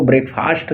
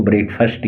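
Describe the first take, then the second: First: ब्रेकफास्ट with a long, open "aa" in the last syllable; ब्रेकफास्ट read by its spelling, ending like "fast"; mispronounced breakfast. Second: ब्रेकफास्ट with a short, reduced last vowel, "BREK-fust"; ब्रेकफास्ट ending in a quick "fust", not "faast"; correct breakfast pronunciation. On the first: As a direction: say ब्रेकफास्ट as "brek-FAAST", stretching the second vowel. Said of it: "इसको ब्रेकफास्ट मत पढ़ना". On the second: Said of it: "इसको ब्रेकफास्ट ही पढ़ते हैं". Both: Shown as a demonstration.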